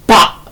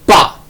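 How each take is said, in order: The two takes are said the same way.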